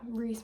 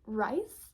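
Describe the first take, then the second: First: The vowel sounds like 'ee', as in reese. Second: The vowel sounds like 'eye', as in rice. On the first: The speaker calls it right. "Reese makes more sense" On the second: The speaker calls it wrong. "I know I'm an idiot and was calling Reese Rice"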